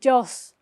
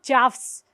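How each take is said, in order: First: The vowel is a plain long o sound. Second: The vowel is followed by an f-like sound. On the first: The speaker calls it right. "but jaws" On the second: The speaker calls it wrong. "not jaws"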